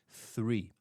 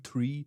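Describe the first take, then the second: First: It begins with a th sound. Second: It begins without a th sound. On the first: The speaker calls it right. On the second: The speaker calls it wrong.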